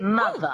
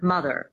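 First: It is said with a transatlantic accent. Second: It is said with a standard American accent.

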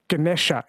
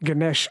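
First: It is said with a final vowel sound. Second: It is said ending on the consonant.

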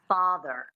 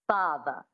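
First: The final R is clearly pronounced. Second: The final R is dropped for a schwa.

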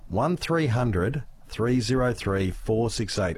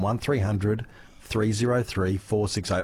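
First: The number is said slowly and deliberately. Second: The number is said at normal, quick speed.

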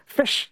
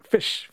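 First: It is said with a New Zealand accent. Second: It is said with an Indian accent.

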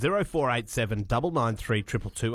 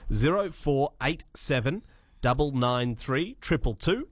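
First: The number is read at normal speed. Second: The number is read more slowly.

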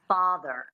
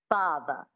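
First: It is said with a standard American R. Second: It is said in a transatlantic accent without R.

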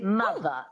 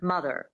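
First: It has a transatlantic accent with no final R. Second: It has a standard American accent with a final R.

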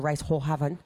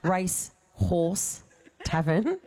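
First: It is said fast, words run together. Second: It is said slowly, words kept apart.

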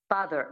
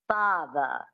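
First: It is said in an American accent. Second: It is said in a transatlantic accent.

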